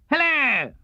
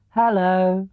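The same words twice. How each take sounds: First: Much higher, springy Tigger hello; Tigger's hello. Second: Lightly voiced bear greeting; a hint of sleepy Pooh; Pooh's hello. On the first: Tigger greets Pooh in a high bouncy voice. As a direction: pop it up high like a bouncing tiger. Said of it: "said Tigger". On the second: Pooh greets Tigger, lightly voiced. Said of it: "said Pooh". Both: A narrator's reading.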